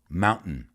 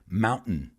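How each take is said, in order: Both takes have the same delivery.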